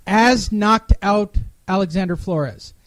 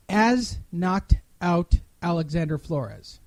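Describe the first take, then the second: First: Said in the usual way. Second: Slow down and lean on the bad grammar of "As knocked out"; mock-careful reading of a broken line; slow, pointed reread. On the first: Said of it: "I'm gonna read that again". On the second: Shown as a demonstration. Host rereading the typo slowly for Andrew, pointed. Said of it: "that sentence makes no sense".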